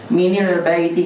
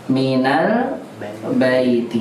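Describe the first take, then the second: First: The nun of min carries an i vowel. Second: The nun of min carries an a vowel. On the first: The speaker calls it wrong. "kasrah aja dah. Minil baiti, nggak bisa" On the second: The speaker calls it right. "maka sukunnya jadi fathah"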